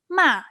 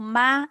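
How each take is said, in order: First: The syllable is said with the fourth tone. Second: The syllable is said with the first tone. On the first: The word means scold. "The fourth tone ma it means scold" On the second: The word means mother. "ma it means mother"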